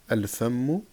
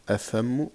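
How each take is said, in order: First: "al-fammu" with the L sounded before f; lam pronounced. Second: "afammu" with no L, straight from a to f; L dropped by slip. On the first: Shown as a demonstration. Teacher correcting a slip for learners, lam pronounced. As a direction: correct it to "al-fammu", clear L in the article. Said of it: "on prononce le lem". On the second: Real, not acted. Teacher misreading a moon-letter example, L dropped. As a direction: slip into "afammu", the article's L missing.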